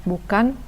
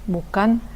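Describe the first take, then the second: The two takes are said the same way.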